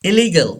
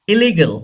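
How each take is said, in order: No difference in how they are said.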